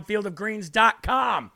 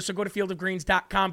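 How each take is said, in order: First: Slow, spelled-out web address; slow ad read. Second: Said in the usual way. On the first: Shown as a demonstration. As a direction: draw out each word of the address. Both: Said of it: "repeats address slower".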